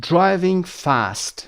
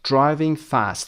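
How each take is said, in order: First: Very slow, drawn-out "driving fast", every sound laid out; slow model phrase. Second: Said in the usual way. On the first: Shown as a demonstration. Teacher modelling the phrase for students, very slow. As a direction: spell it out slowly so students can copy. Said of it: "teacher models phrase slowly". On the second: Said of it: "teacher repeats phrase normally".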